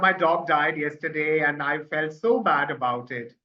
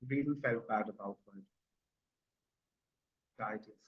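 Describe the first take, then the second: First: It sounds cheerful, with a smile. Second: It sounds sad, in a lowered voice.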